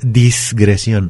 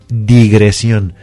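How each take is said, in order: First: The word starts with dis, an s before g. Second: The word starts with di, no s before g. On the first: The speaker calls it wrong. "no es disgresión" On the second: The speaker calls it right. "es digresión. Sin la S"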